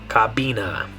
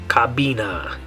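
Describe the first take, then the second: The two takes are said the same way.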